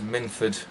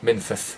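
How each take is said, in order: First: The name is said with an English pronunciation. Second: The name is said with a Welsh pronunciation. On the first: The speaker calls it wrong. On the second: The speaker calls it right.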